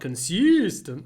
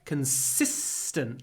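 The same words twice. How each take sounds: First: The s sound is short and plain. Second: The s sound is drawn out long. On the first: "Not consistent" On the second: "Lots of s"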